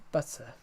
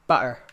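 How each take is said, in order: First: Butter said quietly with the t and u run together; butter softened to pʌtə; butter blended, no hard t; accent demo of butter. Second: Butter said with a crisp t; Butter with the t sounded clearly; Butter said firmly with a crisp t. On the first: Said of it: "the T and the U go together". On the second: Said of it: "Like butter". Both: Shown as a demonstration.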